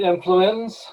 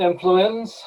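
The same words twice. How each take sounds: First: It is said so it resembles influenza. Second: It is said so it resembles influenza.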